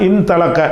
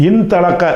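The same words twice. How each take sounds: Both takes have the same delivery.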